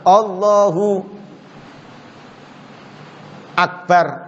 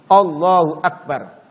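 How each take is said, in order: First: There is a long pause between the words. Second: The words run together with no pause.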